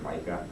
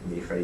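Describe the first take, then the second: First: The name has the familiar English pronunciation. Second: The name has a Hebrew pronunciation. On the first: "you've probably heard Micah" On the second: "I use Hebrew pronunciations for their names"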